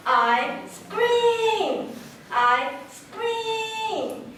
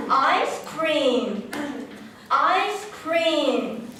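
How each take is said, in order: First: High, sustained "scream" after a separate "I"; I scream phrasing. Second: "Ice cream" at normal pitch, evenly timed; ice cream phrasing. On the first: Teacher contrasts similar words, high drawn-out "I scream". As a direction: split off "I", then stretch "scream" high. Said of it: "like this". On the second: Teacher contrasts similar words, measured "Ice cream". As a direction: say "Ice cream" with the S closing the first word. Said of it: "pronunciation and the tempo is important". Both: Shown as a demonstration.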